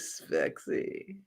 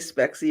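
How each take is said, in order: First: The word is said with lively, marked intonation. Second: The word is said flatly, without much intonation. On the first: The speaker calls it right. "you have to say spexy" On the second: The speaker calls it wrong. "when you say spexy"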